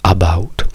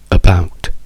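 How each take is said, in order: First: The first vowel is a full open 'a'. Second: The first vowel is a weak, reduced schwa. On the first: The speaker calls it wrong. "gli italiani direbbero about, A A" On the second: The speaker calls it right. "noi diciamo e, e, e"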